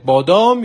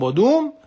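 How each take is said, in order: First: The second vowel is a long 'a' sound. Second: The second vowel is an 'oo' sound.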